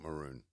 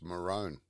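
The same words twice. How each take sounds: First: The word is pronounced as it is spelled. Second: The word uses a West Australian pronunciation. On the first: "but it's spelt maroon" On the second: "A West Australian way to say it, too. It's maroon"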